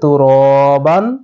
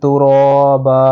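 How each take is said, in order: First: The word ends with an n sound. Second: The word ends with a long a vowel. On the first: The reader continues without stopping. "যদি আমরা না থামি তাহলে কি হবে?" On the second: The reader stops at this word. "আর যদি থেমে যাই তাহলে"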